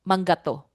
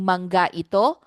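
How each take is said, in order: First: The two words merge, dropping the middle vowel. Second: The two words are said separately in full. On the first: "in casual speech they just say" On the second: "instead of saying manga ito"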